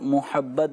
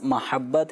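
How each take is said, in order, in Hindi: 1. पहला स्वर 'o' की आवाज़ है। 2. पहला स्वर छोटा 'a' है। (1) "मीम पे पेश के साथ मोहब्बत भी बोला जाता है" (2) "मीम के ज़बर के साथ है"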